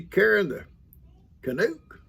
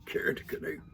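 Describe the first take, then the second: First: Karen the Canuck, read out testing the name; reading the sign-off. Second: "Karen the Canuck" whispered to himself. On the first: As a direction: sound out "Canuck" with a lifted end. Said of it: "Is it Canuck?". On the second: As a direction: savor the name in a whisper. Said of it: "I love that". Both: Shown as a demonstration.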